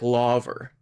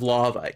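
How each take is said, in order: First: The word ends with an added R sound. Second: The word ends on a plain vowel, no R. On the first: "some Brits will say things like laver" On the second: "instead of lava"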